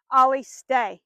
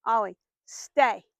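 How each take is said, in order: First: Loud, firm command; firm command called out so the dog hears it. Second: Slow, drawn-out firm command; firm, slow repeat of the stay command. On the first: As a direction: order the dog to hold still, like a stop sign. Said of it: "in a pretty firm voice". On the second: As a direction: stretch the command out so he hears it. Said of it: "I wanna make sure he hears me". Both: Shown as a demonstration.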